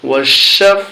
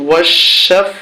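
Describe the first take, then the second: No difference in how they are said.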